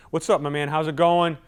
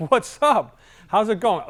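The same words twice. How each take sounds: First: Firm, forceful hello; no-nonsense greeting to a dominant client; direct greeting. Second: Higher, louder, beaming hello; light up like meeting an old friend; upbeat greeting to an outgoing client; bubbly greeting. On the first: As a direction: greet him straight and businesslike. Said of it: "I can be forceful. The tone's direct". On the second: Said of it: "The I's like". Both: Shown as a demonstration.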